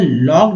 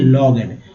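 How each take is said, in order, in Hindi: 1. शब्द एक अक्षर में बोला जाता है। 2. शब्द दो अक्षर में बोला जाता है। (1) "यहाँ लॉग्ड होगा" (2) "ना कि लॉगड"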